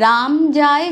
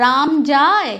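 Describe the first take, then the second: First: Said in the usual way. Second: রাম যায় said slowly as a question; question tune. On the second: Shown as a demonstration. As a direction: draw out যায় like asking. (জিজ্ঞাসার সুরে রাম যায়) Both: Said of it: "এটা তো আমরা জিজ্ঞাস্য ধ্বনি হয়ে যাচ্ছে".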